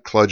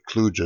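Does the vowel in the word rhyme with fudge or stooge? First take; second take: fudge; stooge. First: The vowel sounds like the u in fudge. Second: The vowel sounds like the oo in stooge. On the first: "not kludge as in fudge" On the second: "but kludge as in stooge"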